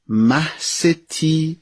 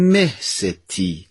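First: The first syllable is pronounced mah. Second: The first syllable is pronounced meh. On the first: It means moon lady. "مه ستی یعنی ماه بانو" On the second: It means great lady. "نوع دیگری هم تلفظ میکنن مه ستی"

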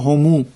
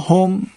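First: The pronoun ends with an added u vowel. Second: The pronoun ends in the consonant m. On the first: "برخی از قبایل عرب اینطوری میگن" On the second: "این ضمائری است که به کار برده میشه در عربی"

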